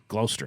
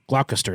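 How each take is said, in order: First: The name is pronounced differently from its spelling. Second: The name is pronounced just as it is spelled. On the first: The speaker calls it right. "but it's ... I think" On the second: The speaker calls it wrong. "is what it looks like"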